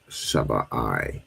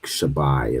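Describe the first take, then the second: First: The final 'i' is a separate syllable. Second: The final 'i' is joined to the vowel before. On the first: "the I is separate" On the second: "joining it, like Shabai is in seven"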